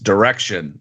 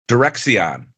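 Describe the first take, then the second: First: The middle is said with a 'k' sound only. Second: The middle is said with a 'ks' sound. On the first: The speaker calls it right. "don't don't pronounce the X" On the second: The speaker calls it wrong. "I kept pronouncing it Direxion"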